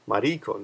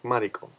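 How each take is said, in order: First: The pitch is not high on the first syllable. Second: The pitch is high on the first syllable. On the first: The speaker calls it wrong. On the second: The speaker calls it right. "like Mariko"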